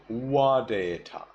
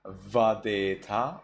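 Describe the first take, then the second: First: Wadeta starting with a rounded W; wadeta, W in place of V; Burmese W reading. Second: Vadeta starting with a buzzed V; vadeta, V onset, rising; standard V reading. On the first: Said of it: "V changes into wa". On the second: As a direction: teeth on lip for the v of vadeta. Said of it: "Instead of vadeta". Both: Shown as a demonstration.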